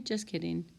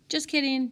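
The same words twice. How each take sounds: First: Said in the usual way. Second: Playful, higher and louder; joking take-back. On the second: Real, not acted. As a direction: laugh off the joke quickly.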